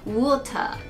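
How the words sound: It is said with a British accent. "イギリス英語だと割と日本語の、カタカナ読みに似てるんですけどWater という発音"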